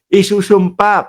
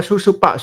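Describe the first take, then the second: First: The word is said in full with every sound. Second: The word is clipped, missing the first vowel and m. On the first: The speaker calls it right. "Isusumpa yung sabi ko" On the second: The speaker calls it wrong. "nagkamali lang ako ng pagkakabigkas"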